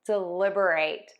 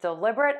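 First: Stress falls on the second and last syllables. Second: Stress falls on the second syllable only. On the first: It is a verb: to think carefully. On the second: It is an adjective: done on purpose.

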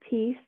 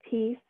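No difference in how they are said.

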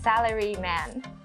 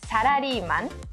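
First: It is pronounced with an English accent. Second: It is pronounced the Japanese way. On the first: "but in English accent, it's salaryman" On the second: "in Japanese, it's salaryman"

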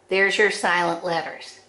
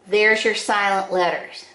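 No difference in how they are said.

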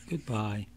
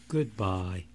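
Both takes have the same delivery.

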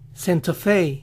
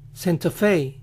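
The two takes are said the same way.

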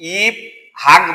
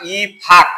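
First: The h is sounded as a separate sound. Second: The h merges into an aspirated p sound. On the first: The speaker calls it wrong. "ই হাক বলবো না" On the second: The speaker calls it right. "হয়ের উচ্চারণ হবে না"

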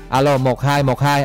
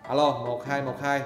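First: The voice is very close and sounds distorted. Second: The voice is about a meter away, sounding distant. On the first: "mình để cái miệng mình gần vào cái micro" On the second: "bây giờ mình sẽ để xa nha"

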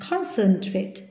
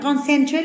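First: The stress is on the first syllable. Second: The stress is on a later syllable. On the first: The speaker calls it right. "Âm tiết số 1" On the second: The speaker calls it wrong. "là sai nhé"

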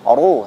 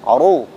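First: The r sound is heavy and thick. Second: The same.

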